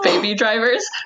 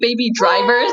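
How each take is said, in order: First: It is said in a plain accent. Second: It is said in an imitated accent. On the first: This is the usual way to say it. "instead of baby drivers" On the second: This copies how someone else says it. "how you say baby drivers"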